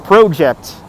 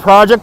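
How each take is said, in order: First: It is said in a Canadian accent. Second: It is said in a non-Canadian accent.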